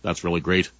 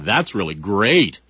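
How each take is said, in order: First: It is said plainly without sarcastic overemphasis. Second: It is said sarcastically with heavy overemphasis. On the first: The speaker means the words literally. "what a text message would say" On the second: The speaker means the opposite of the words. "sarcasm ... the overemphasis in your voice"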